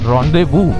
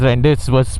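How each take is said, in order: First: The word ends with a 'voo' sound. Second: The word ends with a 'bus' sound. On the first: The speaker calls it right. "This apparently is pronounced as rendezvous" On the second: The speaker calls it wrong. "It's not Riders Rendez bus"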